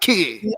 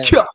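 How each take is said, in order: First: The syllable sounds like 'key' with no glide. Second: The syllable sounds like 'kya' with a y-glide. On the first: The speaker calls it wrong. "not key" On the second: The speaker calls it right. "Kya, kya, not key"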